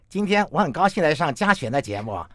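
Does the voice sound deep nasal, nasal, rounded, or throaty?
throaty. The mouth is flattened, giving a throaty tone. "那如果你把嘴扁扁的呢？ 喉音就变多了"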